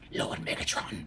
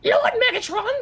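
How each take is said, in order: First: It imitates Starscream in an Igor-like voice. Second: It imitates Starscream's cartoon voice, not Igor-like.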